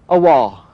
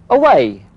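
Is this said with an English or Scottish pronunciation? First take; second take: Scottish; English. First: It is said the Scottish way, 'awa'. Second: It is said the English way, 'away'.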